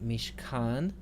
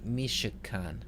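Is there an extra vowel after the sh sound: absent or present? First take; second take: absent; present. First: No vowel is heard between sh and k. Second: A short vowel is heard between sh and k. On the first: "If the schwa is silent" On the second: "If the schwa is pronounced"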